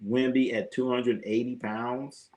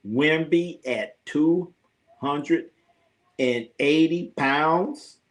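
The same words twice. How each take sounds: First: Said in the usual way. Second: Drawn out, slow, rising question; slow disbelief. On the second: Shown as a demonstration. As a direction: stretch each word in disbelief.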